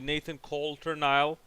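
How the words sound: The name is said with an American pronunciation. "the American pronunciation will be"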